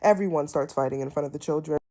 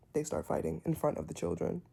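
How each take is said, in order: First: "Everyone" punched, whole line faster; stress on everyone. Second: Said in the usual way. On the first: Shown as a demonstration. Recapping the house fight, stressing "Everyone". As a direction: hit "Everyone" hard and rush on.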